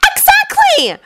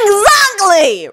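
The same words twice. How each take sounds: First: High, ringing cry of triumph; triumphant shout. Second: Ron's curt growl, higher than the narration. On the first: Hermione scoring off Ron, triumphant high shout. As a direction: crow it like she's just won the point. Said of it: "Hermione shouted in triumph". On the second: Ron ending the argument with Hermione, curt growl. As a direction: snap it out with finality. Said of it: "Ron growled". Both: Acted.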